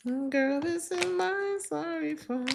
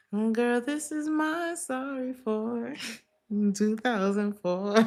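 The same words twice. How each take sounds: First: A much higher, hammed-up sassy voice; mock their flimsy apology, pitched way up. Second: Sassy mock apology. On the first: Repeats mocking the other person. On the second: Mimicking the other person's excuse.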